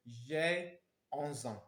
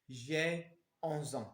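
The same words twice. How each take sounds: The two takes are said the same way.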